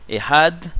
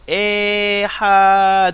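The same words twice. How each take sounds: First: Ehad short, stressed on HAD; correct two syllables. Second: Ehad as three long, loud, high chanted syllables, e-ha-de; hammed-up drawn-out "Ehad" with an extra vowel; mocking wrong pronunciation. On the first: Shown as a demonstration. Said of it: "l'accent tonique sur la deuxième syllabe". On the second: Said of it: "Ça, c'est insupportable".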